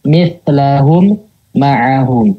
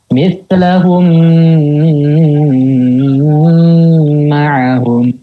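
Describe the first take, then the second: First: A pause breaks the two m sounds apart. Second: The nasal m is held far too long. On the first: "memberikan jeda di antara kedua mim" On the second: "Itu kelebihan itu"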